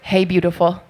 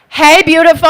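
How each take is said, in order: First: It is said at a quieter volume. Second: It is said at a louder volume.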